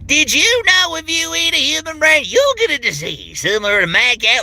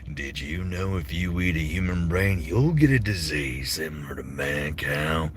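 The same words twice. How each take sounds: First: It sounds over the top, southern and crazy. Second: It sounds lower, evil and creepy.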